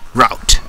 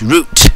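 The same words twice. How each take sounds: First: The word is said with an American pronunciation. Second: The word is said with a British pronunciation. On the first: "route for Americans" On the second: "route for British English speaking people"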